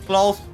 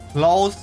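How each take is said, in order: Both takes have the same delivery.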